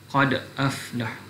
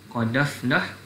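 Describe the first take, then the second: First: A glottal stop is kept before the second word. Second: The glottal stop is dropped, linking dal to vowel. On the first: "tidak naqal"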